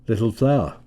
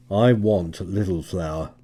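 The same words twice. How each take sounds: First: Fake nonchalance. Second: Confident. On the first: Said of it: "with an assumed nonchalance". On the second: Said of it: "he announced confidently". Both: A narrator's reading.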